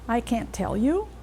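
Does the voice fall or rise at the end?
rises. The pitch rises at the end. It is a question. "if you let your pitch rise at the end ... you're asking a question"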